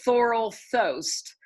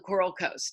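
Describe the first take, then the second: First: Both words begin with a TH sound. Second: Both words begin with a K sound. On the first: The speaker calls it wrong. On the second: The speaker calls it right.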